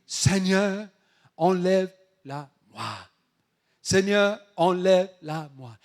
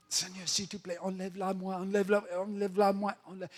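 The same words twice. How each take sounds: First: Loud, deliberate plea in short bursts; fervent prayer. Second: Higher, hurried begging; insistent pleading. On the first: Paul praying to the Lord to remove the thorn, fervent. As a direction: call it out firmly, phrase by phrase. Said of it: "il a prié". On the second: Paul begging the Lord despite a no, insistent pleading. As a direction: repeat the plea over and over without stopping. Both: Acted.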